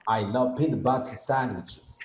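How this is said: It is said in a British accent.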